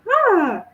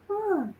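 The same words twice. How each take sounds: First: The surprise is open and unrestrained. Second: The surprise is held in and subdued.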